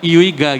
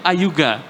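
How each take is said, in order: First: The name starts with an 'ee' sound. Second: The name starts with an 'eye' sound. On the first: It is read as the letters are written. The speaker calls it wrong. "kan tulisannya India Ultra, India Golf Alpha ya, Iuiga gitu ya" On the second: It is read the way the name is actually said. The speaker calls it right. "Cuma kalau dibaca itu Ayuga"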